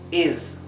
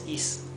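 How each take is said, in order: First: The final consonant is a buzzing z sound. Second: The final consonant is a hissing s sound. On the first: The speaker calls it right. "Esto es is" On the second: The speaker calls it wrong. "no es is"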